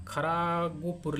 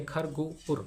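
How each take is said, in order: First: खरागुपुर with a long "aa" after र; misread with added vowel. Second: खरगोपुर with खर closed, no vowel after the र; correct syllable division. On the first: Teacher warning of misreading, खरागुपुर with an extra drawn-out "aa". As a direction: open खर into "kharaa" in खरागुपुर. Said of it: "खरागुपुर पढ़ा जाएगा ना". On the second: Teacher showing how syllables are known, खरगोपुर cleanly divided after खर. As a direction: say खरगोपुर as खर, then गोपुर. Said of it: "कैसे जान पाएंगे कि दो सिलेबल हैं". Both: Shown as a demonstration.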